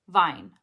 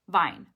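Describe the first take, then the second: Both takes have the same delivery.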